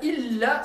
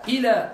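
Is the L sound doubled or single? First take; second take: doubled; single. First: The L sound is held and doubled. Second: The L sound is short and single. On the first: It means except. "c'est sauf" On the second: It means towards. "ça veut dire vers"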